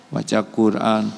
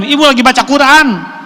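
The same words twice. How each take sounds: First: Said in the usual way. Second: Put-on annoyed child. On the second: Anak menegur ibu.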